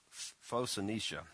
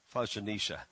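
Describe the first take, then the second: First: "Phoenicia" started with stuttered F- sounds, then said slowly; stumbling name. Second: "Phoenicia" said whole in one clean go, falling at the end; clean retry. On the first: Real, not acted. Preacher stumbling over a Bible place name, stuttered start. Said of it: "Gosh, I can't even speak English". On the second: Shown as a demonstration. Preacher retrying a Bible place name, clean and plain. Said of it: "I can't even say that".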